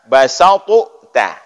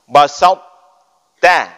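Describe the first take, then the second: First: The first t is released with a vowel bounce. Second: The first t is held with no release. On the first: The speaker calls it wrong. "Jangan dibaca basatu ta" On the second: The speaker calls it right.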